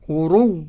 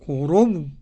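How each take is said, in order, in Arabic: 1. الحركة الأخيرة تُنطق بخفة وبشكل قصير. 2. تُحذف الحركة الأخيرة تماماً عند الوقف. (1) "أدي الراو" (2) "أدي السكون"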